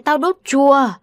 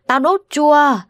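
First: Cursing. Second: Cursing louder. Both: A narrator's reading. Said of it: "tiếng chửi của lão Mi Chột".

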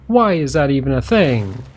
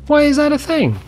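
First: Said in the usual way. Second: "Why" jumps much higher, falling; exasperated disbelief; incredulous. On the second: Real, not acted. Repeating question.

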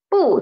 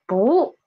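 First: "不" as bù, falling sharply in fourth tone; original fourth tone. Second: "不" as bú, rising in second tone; changed second tone. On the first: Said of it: "changed into". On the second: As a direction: lift "不" upward like a question. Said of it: "it will change into second tone". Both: Shown as a demonstration.

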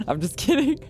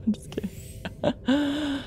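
First: Laughing. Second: Slow, drawn-out whisper. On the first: Real, not acted. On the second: Pretend. Joking to Markiplier in a slow whisper. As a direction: breathe the joke back softly.

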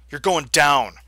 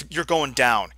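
First: Louder, defiant repeat; loud declaration. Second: Said in the usual way. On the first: Real, not acted. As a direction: say it like a threat.

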